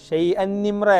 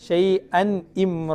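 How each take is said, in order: First: The second glottal stop is dropped and words run together. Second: Both glottal stops are clearly pronounced, words kept apart. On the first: The speaker calls it wrong. "രണ്ടാമത്തെ ഹംസ ഇല്ലാതായി പോകും" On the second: The speaker calls it right. "രണ്ട് ഹംസ വ്യക്തമാക്കണം"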